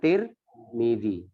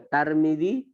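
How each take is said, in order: First: The first syllable has the vowel i. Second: The first syllable has the vowel a. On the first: "boleh dibaca Tirmidzi" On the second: "boleh dibaca Tarmidi"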